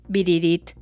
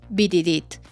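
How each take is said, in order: No difference in how they are said.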